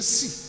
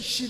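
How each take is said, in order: First: The word begins with an 's' sound. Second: The word begins with a 'sh' sound. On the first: People from that land cannot make the other sound. The speaker calls it wrong. "they will say si" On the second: This is the standard way to say it. The speaker calls it right. "To say she"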